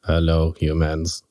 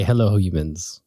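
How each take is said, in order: First: Low, stiff robot voice. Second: Said in the usual way. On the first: Pretend. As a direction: speak like a lowered robot. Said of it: "he can do the, uh, robot voice better than me".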